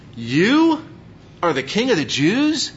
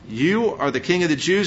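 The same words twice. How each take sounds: First: It is said in total disbelief. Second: It is said in a plain, neutral tone.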